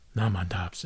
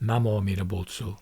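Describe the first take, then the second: First: The phrase is clipped into one short word. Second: All syllables of the phrase are said in full. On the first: "that can be shortened" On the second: "we say Namo Amida Butsu"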